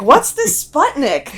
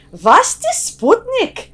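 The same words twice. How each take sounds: First: Said in the usual way. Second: Put-on thick Yiddish accent, high and slow; old Yiddish grandmother accent. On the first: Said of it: "It's like". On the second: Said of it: "she said in her, like, thick, you know, Yiddish accent".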